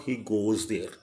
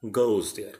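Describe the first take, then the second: First: Goes said flat as goz; wrong goes. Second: Goes gliding O into U; right goes. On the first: Teacher shows a class the wrong goes. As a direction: goes without the O U glide. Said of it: "It's not he goes there". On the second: Teacher shows a class the right goes. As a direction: say goes as gouz. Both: Shown as a demonstration.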